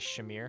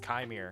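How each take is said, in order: First: The name begins with a sh sound. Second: The name begins without a sh sound. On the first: The speaker calls it wrong. "a bunch of Star Wars nerds say Shamir" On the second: The speaker calls it right. "Q doesn't make a sh noise in any language"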